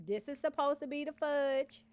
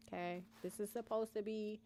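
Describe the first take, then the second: First: Said in the usual way. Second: Whisper. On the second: Real, not acted.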